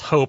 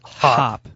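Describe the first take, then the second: First: The word rhymes with 'hope', a long o vowel. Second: The word rhymes with 'hop', a short o vowel. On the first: This is how one pair of people pronounces it. "they do this thing that they pronounce Hope" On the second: This is how most people pronounce it. "everyone else seems to pronounce Hop"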